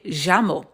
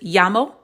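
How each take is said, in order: First: The 'll' sounds like a j or sh. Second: The 'll' sounds like an English y. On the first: "like from Argentina and Uruguay, ... more of like a j sound" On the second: "sometimes it can sound like Y"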